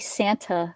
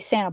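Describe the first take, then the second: First: The T sound in the middle is pronounced. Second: The T sound in the middle is dropped. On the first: This is not how local Californians say it. The speaker calls it wrong. "You don't say Santa. Tuh" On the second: This is how local Californians say it. The speaker calls it right. "we also don't like to say T's... you say Santa Barbara"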